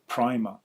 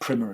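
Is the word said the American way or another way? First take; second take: non-American; American. First: The word is said in a non-American way. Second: The word is said the American way.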